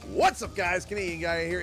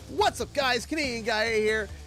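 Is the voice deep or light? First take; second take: deep; light. First: The voice is deeper and lower in pitch. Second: The voice is lighter and higher in pitch. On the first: This is how the voice sounds now. "It's that deeper tone" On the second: This is how the voice used to sound. "I used to be like"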